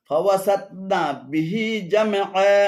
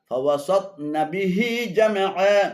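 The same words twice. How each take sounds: First: The syllable 'na' ends the first word. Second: The syllable 'na' starts the second word. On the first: The speaker calls it right. "শুদ্ধ পাঠ হলো" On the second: The speaker calls it wrong. "অশুদ্ধ পাঠ হলো"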